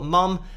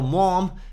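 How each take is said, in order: First: The word is said in a British accent. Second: The word is said in an American accent. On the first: "we say mum here in the U K" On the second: "apologies for my American accent there"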